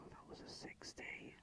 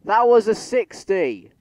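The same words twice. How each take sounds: First: Whispered in disbelief; stunned whisper. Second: Slow, loud, high outraged yell; outraged shout. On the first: Gamer whispering at the train sim in stunned disbelief. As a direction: breathe it out, barely audible. Stunned after missed limit. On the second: Gamer shouting at the train sim, slow outraged yell. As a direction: bellow it in disbelief at the game. Train game ignored speed limit. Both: Real, not acted.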